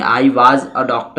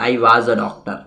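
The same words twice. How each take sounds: First: "was" stretched slow and long, the wrong way; wrong drawn-out was. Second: "was" short and quick, as in fluent speech; correct short was. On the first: Teacher shows students the wrong stretched was, drawn out. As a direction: drag out "was" as a bad example. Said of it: "ऐसे नहीं बोलेंगे". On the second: Teacher models the correct short was for students, brisk. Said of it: "was बोलेंगे". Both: Shown as a demonstration.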